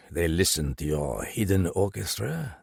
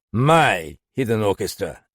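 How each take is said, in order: First: Said in the usual way. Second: "My hidden orchestra" flung back louder, hitting "my"; mocking, irritated echo; snapped. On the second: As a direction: spit the phrase back at him. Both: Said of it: "Galland snapped".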